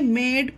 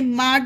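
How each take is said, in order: First: The vowel sounds like 'ay'. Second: The vowel sounds like 'ah'. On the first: The speaker calls it right. "मेड पढ़ेंगे" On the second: The speaker calls it wrong. "इसे माड नहीं पढ़ेंगे"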